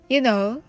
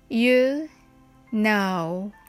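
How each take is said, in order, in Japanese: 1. このフレーズは速く言われています。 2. このフレーズはゆっくり言われています。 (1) "それでは早く言ってみましょう。" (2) "はじめはゆっくりです。"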